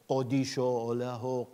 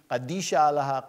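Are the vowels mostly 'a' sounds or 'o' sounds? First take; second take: o sounds; a sounds. First: The vowels are pronounced as 'o' sounds. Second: The vowels are pronounced as 'a' sounds. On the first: This is the Western dialect. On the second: This is the Eastern dialect.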